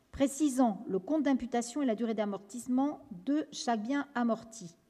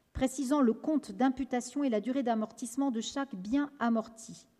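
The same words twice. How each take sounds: Both takes have the same delivery.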